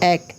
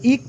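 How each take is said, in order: First: The vowel sounds like 'e' as in 'bake'. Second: The vowel sounds like 'i' as in 'sick'. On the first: The speaker calls it right. "এটা এক পড়তে হবে" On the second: The speaker calls it wrong. "এখানে যদি আপনি ইক পড়েন, এটা মিলবে না"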